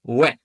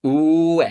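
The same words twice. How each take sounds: First: Ue as one quick syllable, weh; "ue" said weh, with no gap between the vowels; merged diphthong. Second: Ue with a long drawn-out oo gliding into eh; "Ue" as slow oooo-eh; two vowels slowly joined. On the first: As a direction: blend "ue" into a short "weh". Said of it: "which gives us we". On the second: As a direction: stretch the u of "Ue", then slide into e. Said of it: "repeat them one after another". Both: Shown as a demonstration.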